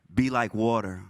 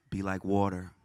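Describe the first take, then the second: First: Louder call. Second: Said in the usual way. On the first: Shown as a demonstration. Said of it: "I want to hear y'all one more time". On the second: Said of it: "I want everybody to repeat after me".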